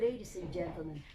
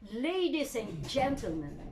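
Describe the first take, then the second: First: It is said weakly, without projection. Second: It is said with strong, projected voice.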